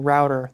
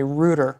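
First: ROUTER said as "rowter"; American-style "router", first vowel as in "out"; American pronunciation. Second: ROUTER said as "rooter"; British-style "router", first vowel as in "root"; UK pronunciation. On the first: Retold or imitated. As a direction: say "router" to rhyme with "doubter". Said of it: "confused by Jason saying router". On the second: Shown as a demonstration. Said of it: "in the U K they actually say".

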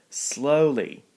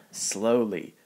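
First: Slowly said higher and louder; emphatic repeat. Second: Said in the usual way. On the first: Acted. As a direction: lean on the second slowly. Victor warns Kevin.

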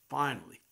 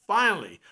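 First: Said in the usual way. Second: The second "finally," louder and bursting; ecstatic frog. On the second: Retold or imitated. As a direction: let "finally," burst out in joy. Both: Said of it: "was ecstatic".

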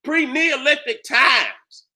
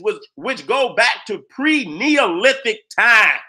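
First: "Pre-Neolithic times" stretched out slow with weight on each part; slow, pointed repeat of "Pre-Neolithic times"; slow emphasis. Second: Said in the usual way. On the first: Shown as a demonstration. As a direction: drag out "Pre-Neolithic times" to make it sink in. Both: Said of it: "Did you hear that?".

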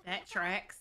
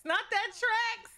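First: Said in the usual way. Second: High, slow, drawn-out "tracks"; disbelieving high drawn "tracks"; mock exclaim. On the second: Real, not acted. Repeats phrase differently.

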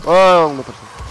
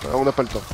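First: Loud, urgent exclamation; loud exclaim. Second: Said in the usual way. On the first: Acted. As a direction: call it out in a rush. Rushing, repeats it louder.

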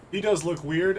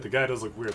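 First: Does pushed higher and louder; emphatic does, rising up; stress on does. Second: Said in the usual way. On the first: Shown as a demonstration. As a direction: lean into the word does.

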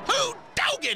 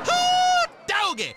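First: High whooping hillbilly cheer; excited whoop. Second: High loud hillbilly whoop; big whoop. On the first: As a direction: yell it out in delight. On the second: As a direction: holler it out in delight. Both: Acted. Celebrating a lucky shot.

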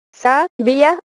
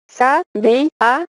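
First: "sa, vía" as two syllables, "vía" in one glide; diphthong in savia. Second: "Sa, vi, a" in three separate syllables; broken diphthong, hiatus. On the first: Teacher showing a diphthong, "sa, vía" in two syllables. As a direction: split "sa, vía" in two beats, keeping the i and a together. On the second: Teacher showing no diphthong, "Sa, vi, a" syllable by syllable. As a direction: split "vi, a" apart, stressing the "vi". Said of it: "no hay diptongo". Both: Shown as a demonstration.

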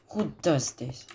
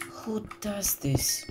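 First: Said in the usual way. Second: "Who does this?" high and drawn out; high slow disbelief. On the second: Real, not acted. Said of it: "repeated high and slow".

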